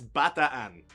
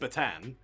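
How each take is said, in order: First: The name has the local Filipino pronunciation. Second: The name has an anglicized pronunciation. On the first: The speaker calls it right. "she convinced me to say it properly" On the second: The speaker calls it wrong.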